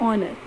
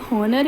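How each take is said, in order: First: The word starts with a vowel, no h. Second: The word starts with an audible h sound. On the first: The speaker calls it right. "आप क्या बोलेंगे? आर and ऑनर" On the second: The speaker calls it wrong. "तो जब आपने H का use ही नहीं करा तो आप हॉनर या हार तो बोलेंगे नहीं"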